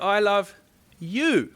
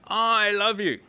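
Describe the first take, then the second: First: The stress is on the word you. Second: The stress is on the word I.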